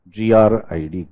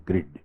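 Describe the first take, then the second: First: G R I D said letter by letter; spelled out. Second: Said in the usual way. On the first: Shown as a demonstration. Teacher spells it for students, letter by letter. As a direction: spell G R I D one letter at a time.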